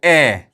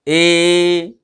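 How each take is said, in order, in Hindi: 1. यह स्वर शॉर्ट है, झटके से कटा हुआ। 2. यह स्वर लॉन्ग है, खिंचा हुआ। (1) "अगर शॉर्ट में पढ़ोगे तो पढ़ोगे ए" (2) "खींच के पढ़ोगे ए"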